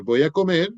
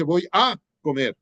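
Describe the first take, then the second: First: Said in the usual way. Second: The little word "a" punched, "comer" left weak; wrong stress on a. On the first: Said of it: "Usted dice". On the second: Shown as a demonstration. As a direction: hit "a" in "Voy a comer" as if it mattered most. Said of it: "uno nunca dice".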